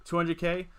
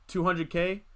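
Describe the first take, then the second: No difference in how they are said.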